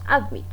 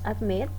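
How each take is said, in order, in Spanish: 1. El acento está en la primera sílaba. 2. El acento está en la segunda sílaba. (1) "no decimos admit" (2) "decimos admit... tiene acento en la última sílaba"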